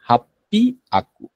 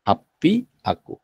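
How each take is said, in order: First: It is run together with a doubled P. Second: The same.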